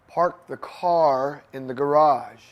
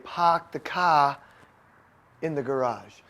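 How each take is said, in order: First: It is said in the speaker's usual accent. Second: It is said in a New England accent.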